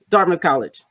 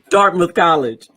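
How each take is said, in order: First: It is said at a normal conversational pace. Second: It is said slowly with deliberate pauses.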